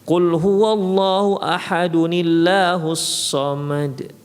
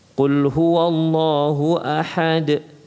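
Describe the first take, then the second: First: The first verse runs straight into the second. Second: The recitation stops after the first verse. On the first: Two verses are joined in one breath. The speaker calls it wrong. "itu disambung antara ayat pertama dengan ayat kedua" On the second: Each verse is recited separately. The speaker calls it right.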